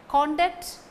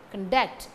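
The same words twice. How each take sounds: First: CONduct with strong, raised CON; stress on first syllable. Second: ConDUCT with short con, strong DUCT; stress on second syllable. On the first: Teacher names the noun form, CONduct stressed first. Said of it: "is the noun". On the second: Teacher shows where verb stress falls, conDUCT stressed second. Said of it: "The stress falls on the second". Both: Shown as a demonstration.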